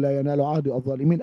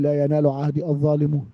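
First: الظالمين with the ending -in, the Quranic reading; correct ending. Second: الظالمون with the ending -un, the form they demand; claimed wrong ending. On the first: Shown as a demonstration. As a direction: say الظالمين ending in -in, the right form. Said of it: "نقول". (نطق الظالمين بالياء كما في القرآن) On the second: Retold or imitated. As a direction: read الظالمون ending in -un as their claimed correction. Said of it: "يجب أن تقول". (نطق الظالمون بالواو كما يزعمون)

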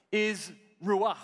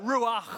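First: Ruach, ch rasped out of the throat. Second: Ruach with a phlegmy rasped ch; throaty ruach. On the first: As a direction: say ruach with a guttural ch from the back of the throat. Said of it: "Can you say that with me?". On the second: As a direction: scrape the ch of Ruach at the back of the throat. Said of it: "You've really got a ch at the back". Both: Shown as a demonstration.

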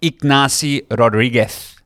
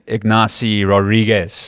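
First: "Rodriguez" ending in a lisped th, careful Spanish vowels; Spanish pronunciation. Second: "Ignacy Rodriguez" with English vowels and a hard z ending; "Rodriguez" said the English way, buzzing z; anglicized. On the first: Shown as a demonstration. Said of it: "I wanna say it the way he wants to say it". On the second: Retold or imitated. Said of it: "I don't wanna anglicize it".

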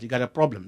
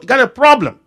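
First: Said in the usual way. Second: High, loud hammered warning; fiery preacher's punchline; preaching shout. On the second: Acted. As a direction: drive the warning home from the pulpit. Repeat, preacher raises voice.

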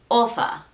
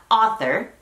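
First: "author" in British English, AW-tha without R; non-rhotic British "author"; British pronunciation. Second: "author" in American English, AH-ther with sounded R; American pronunciation. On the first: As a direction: drop the final R of "author", British style. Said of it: "En inglés británico". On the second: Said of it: "En inglés estadounidense sería". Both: Shown as a demonstration.

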